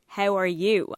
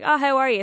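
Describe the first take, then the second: First: It is asked in a sincere, meaningful way. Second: It is asked in a casual, throwaway way.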